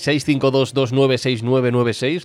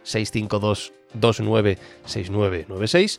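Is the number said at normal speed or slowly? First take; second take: normal speed; slowly. First: The number is said at normal speed. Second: The number is said more slowly.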